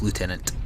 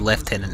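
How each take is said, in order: First: It is pronounced the American way. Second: It is pronounced the British way. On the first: "instead of lieutenant" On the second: "everyone in the forty K future is English, that's why they say lieutenant"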